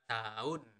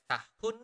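First: The h sound in the middle is dropped. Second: The h sound in the middle is clearly pronounced. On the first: The speaker calls it right. "We usually do not really pronounce the letter H" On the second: The speaker calls it wrong. "we do not really pronounce it as tahun"

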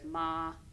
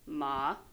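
First: The pitch stays high and level. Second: The pitch dips low then rises.

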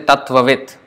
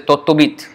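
First: It begins with 'tat' and has a 'tv' cluster. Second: It begins with 'tot' and ends in 'bit'. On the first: This is the Sanskrit pronunciation. "They don't say Tattvavit" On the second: This is the Bengali pronunciation. "they say Tottobit"

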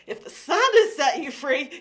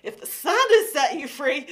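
First: The voice sounds lively and exuberant. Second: The voice sounds lively and exuberant.

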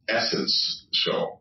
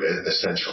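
First: The word is split into essence and show. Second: The word is said in its usual form. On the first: "I like to mispronounce it" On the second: "you know the word essential"

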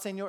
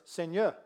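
First: It is pronounced with Spanish-influenced sounds. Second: It is pronounced with French sounds. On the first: The speaker calls it wrong. "It's not Seigneur, because I studied Spanish" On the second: The speaker calls it right. "it's Seigneur"

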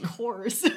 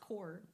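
First: The word ends with an audible S sound. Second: The word ends without any S sound. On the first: The speaker calls it wrong. "but you're calling it Corps" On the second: The speaker calls it right. "but it's core"

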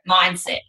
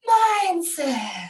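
First: The word is said in a plain, matter-of-fact way. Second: The word is said in an airy, mystical way. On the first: The idea is treated as practical and ordinary. "You and I, we go" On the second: The idea is treated as something ethereal. "You've got to say it like that"

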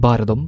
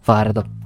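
First: The first consonant is a voiced 'bha' sound. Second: The first consonant is a breathy 'pha' sound. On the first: This is the standard way of saying it. "ശരിക്കും പറയാൻ ശ്രമിച്ചു കഴിഞ്ഞാൽ" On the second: This is the regional way of saying it. "അല്ലെങ്കിൽ എല്ലാം ഫായാണ്"

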